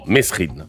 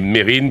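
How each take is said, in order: First: The name is said with an s sound. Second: The name is said without an s sound. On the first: This is how people usually say it. The speaker calls it wrong. "on entende le plus souvent Mesrine" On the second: This is the name's real pronunciation. The speaker calls it right. "la vraie prononciation est Mérine"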